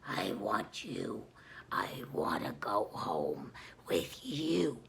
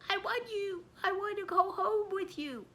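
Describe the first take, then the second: First: It is said in a growling Pazuzu voice. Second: It is said in her normal voice.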